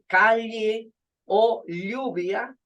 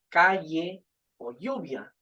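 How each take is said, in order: First: The ll is a lateral, L-like sound. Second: The ll is a Y-like approximant sound. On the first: This is the traditional pronunciation kept in some places. "se pronuncia lle, ... es una lateral" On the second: This is how most Spanish speakers say it today. "Utilizamos una ... aproximante que es la Y"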